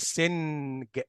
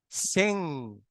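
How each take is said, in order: First: The word ends in a hard g sound. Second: The word ends in a nasal sound only. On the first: The speaker calls it wrong. "مش سنج، نو" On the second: The speaker calls it right. "فتبقى ان، سين"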